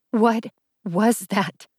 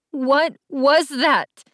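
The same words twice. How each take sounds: First: Slow, shaken question; shaky voice. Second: High, drawn-out heartbroken question; heartbroken hurt. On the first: Allie repeats her question to Jace, mildly shaky. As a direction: repeat it slowly with a touch of shakiness. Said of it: "voice shakier". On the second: Allie confronts Jace in tears, heartbroken. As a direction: stretch each word out, hurt and high-pitched. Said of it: "My voice was filled with such heartbreak and hurt". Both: A narrator's reading.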